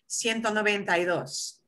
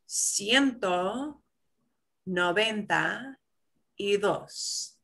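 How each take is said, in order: First: It is said at a normal, quicker speed. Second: It is said slowly and carefully.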